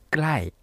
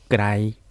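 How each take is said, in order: First: The tone falls. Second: The tone stays level. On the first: It means near. "まずは下がる声調で暗い" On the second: It means far. "平らな声調で暗いというふうに言うと遠い"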